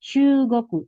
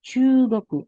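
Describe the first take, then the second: No difference in how they are said.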